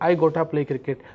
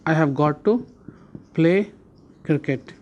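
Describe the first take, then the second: First: 'Have got to' is reduced to 'gotta'. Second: 'Have got to' is said in full.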